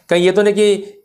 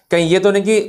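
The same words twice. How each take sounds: The two takes are said the same way.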